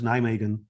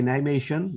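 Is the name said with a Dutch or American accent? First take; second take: American; Dutch. First: It is said with an American accent. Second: It is said the local Dutch way, soft g.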